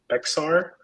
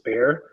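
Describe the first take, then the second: First: The x sound is pronounced, giving two syllables. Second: It is one syllable, sounding like bear. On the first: The speaker calls it wrong. "For the longest time, I would pronounce it as Bexar" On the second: The speaker calls it right. "it turns out that it's pronounced as bear"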